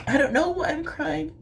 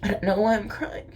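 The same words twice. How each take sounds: First: Choked-up, higher voice through tears; real crying. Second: Crying, faster. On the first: Vlogger tearing up over misunderstood reptiles, crying. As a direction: let the tears pitch the voice up. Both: Real, not acted.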